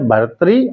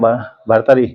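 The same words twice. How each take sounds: First: The middle is said as a short 'tri'. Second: The middle is said as a full 'tari'. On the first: The speaker calls it right. "शुद्ध संस्कृत शब्द है" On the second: The speaker calls it wrong. "लोग बाग उच्चारण शुद्ध नहीं होता है तो भर्तरी बोल देते हैं"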